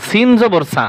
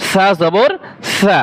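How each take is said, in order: First: "সা" said with a sharp s like সিন; the wrong way, hard s in "সা"; wrong sin sound. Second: "সা" with a soft lisped th; the right way, soft th in "সা"; soft tha sound. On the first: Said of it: "সা জবর তো সা না". ("সা" কঠিন স দিয়ে ভুল উচ্চারণ) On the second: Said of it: "এটা হচ্ছে". ("সা" নরম থ-এর মতো উচ্চারণ) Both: Shown as a demonstration.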